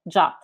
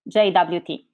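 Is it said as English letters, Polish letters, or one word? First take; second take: one word; English letters. First: It is spoken as a single short word. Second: The letters are spoken with English letter names. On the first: "the RFC suggests the same pronunciation as the English word JUT" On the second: "In English, I usually hear the pronunciation as JWT"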